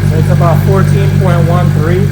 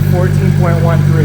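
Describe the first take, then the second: First: Loud, reading out a meter value; raised voice over engine. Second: Loud repeat of fourteen point one three; raised voice over engine. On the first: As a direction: call the number over engine noise. Reading voltage, engine running. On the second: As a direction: call the figure again over engine noise. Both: Real, not acted.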